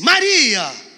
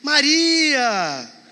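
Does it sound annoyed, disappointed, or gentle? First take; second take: annoyed; gentle. First: It sounds annoyed and exasperated. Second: It sounds gentle and warmly reassuring.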